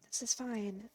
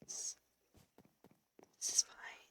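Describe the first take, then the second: First: Said in the usual way. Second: Unvoiced resigned whisper of is fine. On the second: Real, not acted. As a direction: breathe is fine with no voice. Muttering after dying.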